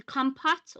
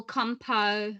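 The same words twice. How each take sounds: First: "compote" with the final T sounded; unsure alternative pronunciation. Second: "compo-" ending on an open O, no T; unsure French-style pronunciation. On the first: Host guessing at the dessert's name, "compote" ending in a clear T. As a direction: try "compote" as KOM-pot, T audible. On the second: Host unsure of the word for stewed apple, "compo-" without T. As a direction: say "compo-" with the final T silent. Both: Shown as a demonstration. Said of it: "I don't even know how you say it".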